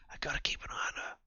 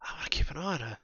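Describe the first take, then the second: First: Fast, whispered aside. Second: Said in the usual way. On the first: Acted. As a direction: whisper it privately, quickly. Second take, whispered.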